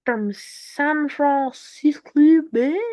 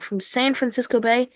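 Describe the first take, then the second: First: Slow, stretched, strange-sounding reading; a goofy slowed-down announcer twist on the phrase; odd drawn-out voice. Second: Said in the usual way. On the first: Acted. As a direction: drag the words out in a weird put-on voice. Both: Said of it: "I don't know why I said it like that".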